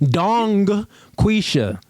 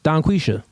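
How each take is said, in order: First: The final G of the first word is pronounced. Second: Said quickly, the final G drops out. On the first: "You want me to pronounce that?" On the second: "if you say it fast, the G disappears"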